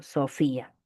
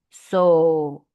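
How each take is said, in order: First: Said in the usual way. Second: "Sofía" as so, fí, a, each held and apart; syllable by syllable. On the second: Shown as a demonstration. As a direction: break "Sofía" slowly so the í stands alone from the a. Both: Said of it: "Separación y unión de vocales".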